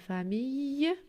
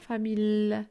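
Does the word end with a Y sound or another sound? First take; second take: Y sound; other sound. First: The ending is said with a Y sound. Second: The ending is said without the Y sound. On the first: The speaker calls it right. "on dit famille" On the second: The speaker calls it wrong. "On dit pas famille"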